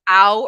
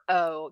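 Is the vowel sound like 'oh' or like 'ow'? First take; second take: ow; oh. First: The vowel sounds like 'ow' in 'cow'. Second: The vowel sounds like 'oh' in 'go'. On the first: "do you guys say ow or o?" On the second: "do you guys say ow or o?"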